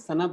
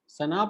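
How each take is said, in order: First: The second vowel is swallowed and short. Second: The second vowel is fully pronounced and long. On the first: The speaker calls it right. "अंदर ही रह गया" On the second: The speaker calls it wrong. "the second आ should be pronounced"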